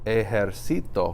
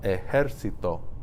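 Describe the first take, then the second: First: The stress falls on the second-to-last syllable. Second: The stress falls before the second-to-last syllable. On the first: The speaker calls it wrong. "If you didn't put an if this accent mark wasn't here, that'd be pronounced ejercito" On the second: The speaker calls it right. "It's pronounced ejército"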